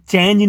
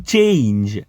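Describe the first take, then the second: First: ચેન્જ with a short, quick e; short vowel, no glide. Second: ચેન્જ drawn out as chei-nj; long ei. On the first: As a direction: say ચેન્જ fast, without the i glide. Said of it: "આને ચેન્જ નહીં કહીએ". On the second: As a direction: add an i glide after che in ચેન્જ. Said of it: "ચે અને જોડે ઈ મૂકવું". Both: Shown as a demonstration.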